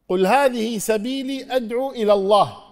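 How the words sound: It stops right after 'ila Allah'. He alone is the one who calls to God. "والوقف الثاني ... تقف"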